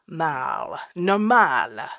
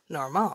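First: The word is said with English pronunciation. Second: The word is said with French pronunciation.

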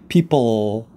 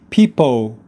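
First: The final L is clearly pronounced. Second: The final L is left out. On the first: The speaker calls it right. "your tongue should be going up and touching the roof of your mouth" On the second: The speaker calls it wrong. "to avoid saying that L, it will come out, it will sound like people"

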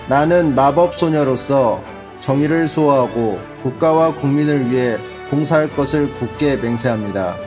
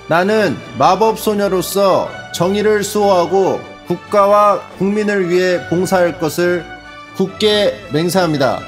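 First: It is read flatly, without emotion. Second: It is read with some emotion.

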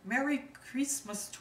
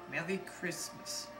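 First: It is said in a Latin-based accent. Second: It is said in a British accent. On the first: "the Latin-based accent" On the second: "I will do the British accent"

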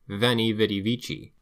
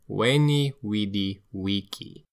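First: It uses the familiar modern pronunciation, c not hard. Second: It uses the classical pronunciation, c like a K. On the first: This is how it is usually heard today. The speaker calls it wrong. "We are tempted to say" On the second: This is how the Romans said it. The speaker calls it right. "in fact, Julius Caesar said"

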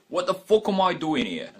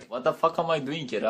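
First: It is spoken with a British accent. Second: It is spoken with a Turkish accent. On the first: "British accent be like" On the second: "Turkish accent be like"

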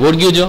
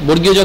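The two takes are said the same way.

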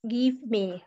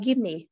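First: Both words are said fully and separately. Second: The words blend into one reduced sound. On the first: "The word give me" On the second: "sound like give me"

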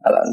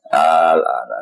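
First: The opening vowel is short, with no lengthening. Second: The opening vowel is drawn out into a long vowel. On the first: "kalau yang tidak ada proses idgham ya normal no? Masanya al-ana biasa no?" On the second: "Hamzah nanti otomatis jilma jadi alif ... melahirkan suara alif maksudnya suara mat"

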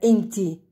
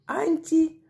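First: The word begins with an e vowel. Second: The word begins with an a vowel. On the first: "Также можно говорить вместо «и» – «э»" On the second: "Иногда сами арабы вместо «и» и «э» могут сказать «а»"

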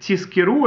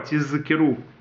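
First: The middle consonant is a voiceless s. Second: The middle consonant is a voiced z. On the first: So that you earn. The speaker calls it wrong. "если звучит тискиру" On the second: So that you remember. The speaker calls it right. "зайн нужно произнести как именно з"

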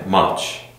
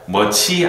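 First: The word ends on the consonant sound. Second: The word ends with an added vowel sound. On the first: The speaker calls it right. "much으로 하시는 게 더 좋아요" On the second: The speaker calls it wrong. "Much이 아닙니다"

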